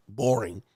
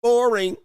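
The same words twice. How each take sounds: First: Said in the usual way. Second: Boring shouted much higher and louder; wife yelling Boring in mock frustration. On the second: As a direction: blast out Boring as the bored wife. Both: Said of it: "She's gonna be like".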